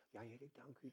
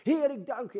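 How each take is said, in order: First: Much softer, hushed little prayer. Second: Much higher and louder cry of thanks; shouted praise. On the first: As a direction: murmur the thanks gently. (zachtjes gebeden) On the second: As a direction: call it out to the sky. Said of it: "wou ik het wel uit schreeuwen". (luid uitgeroepen lofprijzing) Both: Shown as a demonstration.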